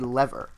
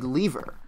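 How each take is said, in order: First: It is said the American way. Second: It is said in a non-American way. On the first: "in American English, it's actually lever" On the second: "people say lever when"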